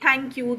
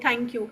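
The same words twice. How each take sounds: Both takes have the same delivery.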